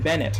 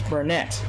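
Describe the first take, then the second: First: The first syllable has no R sound. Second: The first syllable has an R sound. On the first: The speaker calls it wrong. "I keep saying it wrong" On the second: The speaker calls it right. "It's Burnett"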